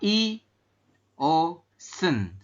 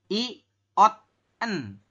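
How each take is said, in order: First: The middle consonant is pronounced as an s sound. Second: The middle consonant is pronounced as a t sound. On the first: The speaker calls it right. "Maka I O sen seperti itu" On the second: The speaker calls it wrong. "Bukan I ot en"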